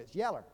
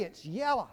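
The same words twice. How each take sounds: First: "yeller" with a Georgia -er ending; Georgia accent. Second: Said in the usual way. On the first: Shown as a demonstration. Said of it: "for those of us from Georgia". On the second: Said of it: "Or for those of us from Georgia".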